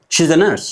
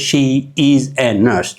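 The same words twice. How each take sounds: First: "She's" run together as one syllable, shiz; contracted she's. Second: "She" and "is" said apart as two full words; "is a nurse" fully sounded, the wrong way; full uncontracted form. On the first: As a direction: say "She's a nurse" with the short joined form. (ቅልጥፍቲ "She's" ብሓደ ቃል) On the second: ("She is" ብሙሉእ ተፈላልዩ) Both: Shown as a demonstration. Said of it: "We don't say".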